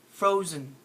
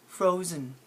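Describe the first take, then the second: No difference in how they are said.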